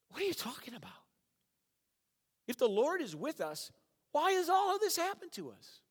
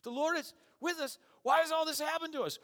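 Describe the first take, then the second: First: Much higher, louder disbelieving protest; incredulous Gideon. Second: High mocking sarcastic complaint, louder. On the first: Retold or imitated. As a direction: Gideon can't believe what he hears. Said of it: "And then he's like". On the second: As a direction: sneer at the angel's promise. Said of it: "I see Gideon being very sarcastic".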